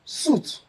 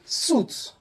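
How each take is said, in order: Both takes have the same delivery.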